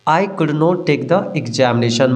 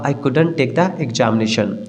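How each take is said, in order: First: 'Could not' is said as two full words. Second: 'Could not' is contracted into one word. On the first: "मैं कुडंट यहाँ short में नहीं लिखा हूँ" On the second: "आजकल short में कुडंट बोला जाता है"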